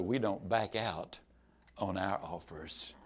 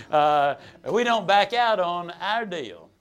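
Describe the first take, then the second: First: Mildly dangerous. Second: Slow and louder, every word firm; a salesman's slow, deliberate refusal to budge; firm, measured insistence. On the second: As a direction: lay each word down like a rule. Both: Retold or imitated. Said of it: "Mildly dangerous".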